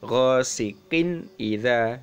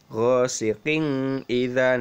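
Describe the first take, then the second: First: The n sound is pronounced clearly. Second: The n sound is not pronounced clearly. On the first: The speaker calls it right. "Jadi kinnya itu jelas" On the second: The speaker calls it wrong. "Tidak boleh"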